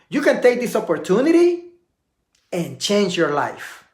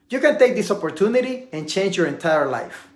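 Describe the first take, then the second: First: A silent pause comes before the next point. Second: The sentence runs on without any silent pause. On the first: The speaker calls it right. "watch how it looks when you take a pause" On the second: The speaker calls it wrong. "I didn't take a pause"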